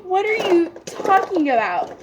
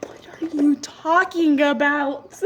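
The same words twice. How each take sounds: First: High-pitched, incredulous question; voiced disbelief. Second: Slow, forceful breathy whisper; whispered disbelief. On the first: Clerk baffled by customer's sad confession, high incredulous question. Repeats her baffled reaction. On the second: Retold or imitated. Clerk baffled by customer's sad confession, slow incredulous whisper. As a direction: whisper it slowly in acted-out bafflement.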